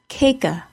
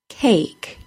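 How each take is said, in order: First: An extra vowel sound follows the final k. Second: The word ends on the k with no vowel. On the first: The speaker calls it wrong. "I do not say cake-a" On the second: The speaker calls it right. "The A is said as a long A and the E is silent"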